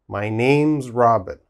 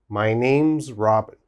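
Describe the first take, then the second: No difference in how they are said.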